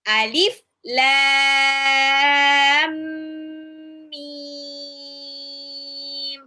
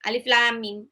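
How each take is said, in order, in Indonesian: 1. Lam dan mim dibaca panjang. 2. Lam dan mim dibaca pendek. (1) "harus enam harokat, harus panjang" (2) "salah juga"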